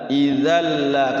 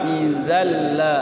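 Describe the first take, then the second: Both takes have the same delivery.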